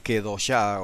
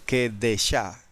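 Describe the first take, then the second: First: The middle vowel is an 'o' sound. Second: The middle vowel is an 'e' sound. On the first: The speaker calls it wrong. "quizás dije Kedoshá o algo así" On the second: The speaker calls it right. "Es Kedeshá"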